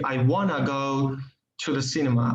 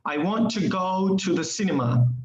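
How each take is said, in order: First: Want to is reduced and blended into wanna. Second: Want to is said as two full words. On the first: "You can change it into" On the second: "The other word that you can contract it is want to"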